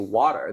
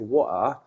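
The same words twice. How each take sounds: First: It is said without a British accent. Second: It is said with a British accent. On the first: "in Harrow, they wouldn't say water" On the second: "They would say water"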